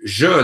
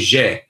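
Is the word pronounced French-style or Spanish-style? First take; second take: French; Spanish. First: The word is pronounced with a French-style vowel. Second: The word is pronounced with a Spanish-style vowel. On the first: The speaker calls it right. "instead of saying" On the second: The speaker calls it wrong. "they say"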